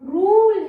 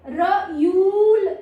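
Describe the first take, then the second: First: The vowel is said as a plain long 'oo'. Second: The vowel is said as 'yoo'. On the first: The speaker calls it right. "ये रूल है, ऊ" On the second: The speaker calls it wrong. "रयूल नहीं है"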